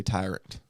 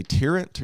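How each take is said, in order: First: "tyrant" said with TIE as first syllable; long-i pronunciation. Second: "tyrant" said with TEER as first syllable; short-i pronunciation. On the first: Host offering co-host the other way, "tyrant" as TIE-runt. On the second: Host quizzing co-host on the word, "tyrant" as TEER-unt. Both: Shown as a demonstration. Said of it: "do you say tyrant or".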